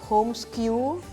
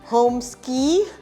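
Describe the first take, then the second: First: The name ends with an 'oo' sound. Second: The name ends with an 'ee' sound. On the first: "a lot of people actually mispronounce. Some call it homeskew" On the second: "Some call it homeski"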